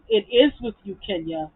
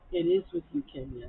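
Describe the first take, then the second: First: Loud retort. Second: Retold retort. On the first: Retold or imitated. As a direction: imitate her getting loud, hit "is" hard. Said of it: "Toya gets loud and says". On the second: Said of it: "And Toya says".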